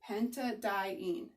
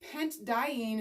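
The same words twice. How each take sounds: First: An a sound is heard between pent and diene. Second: No vowel is heard between pent and diene. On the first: The speaker calls it right. "squeeze a little a in there for pronunciation" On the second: The speaker calls it wrong. "is hard"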